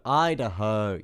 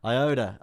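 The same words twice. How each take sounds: First: Idaho, loud and clear as EYE-duh-hoe; louder, confirmed Idaho, EYE-duh-hoe; correct pronunciation. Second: Iota, said as eye-OH-duh; mispronounced Idaho. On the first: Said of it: "Yes, that's how you say it". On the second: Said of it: "saying it wrong". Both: Real, not acted.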